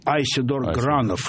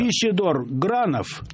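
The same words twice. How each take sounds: First: The name is pronounced the American way. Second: The name is pronounced the Russian way.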